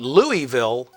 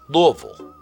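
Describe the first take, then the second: First: It is said the way outsiders say it. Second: It is said the way local natives say it. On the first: The speaker is from outside the area. "if you're from outside of the area" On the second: The speaker is from the area. "If you're a native of the area"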